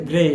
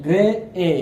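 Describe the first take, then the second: First: Said in the usual way. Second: "grey এ" broken into two beats with a pause; "grey এ" sounded out in separate parts; split in two beats. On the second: Shown as a demonstration. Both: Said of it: "দুইবারে উচ্চারণ হচ্ছে".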